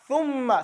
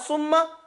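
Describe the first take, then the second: First: It begins with a th sound. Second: It begins with an s sound. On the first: The speaker calls it right. "if you stick your tongue out" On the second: The speaker calls it wrong. "your tongue is behind your two buck teeth"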